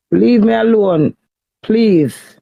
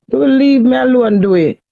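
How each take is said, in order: First: Slower, drawn-out loud begging; loud, slowed plea to be left alone. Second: Raised, forceful plea to be left alone; loud, desperate plea to her husband; loud pleading. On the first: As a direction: stretch each word out, pleading hard. Wife pleading with husband, loud. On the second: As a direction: push it out loud, begging him to stop. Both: Real, not acted.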